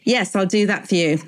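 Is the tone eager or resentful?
resentful. It sounds grudging and resentful.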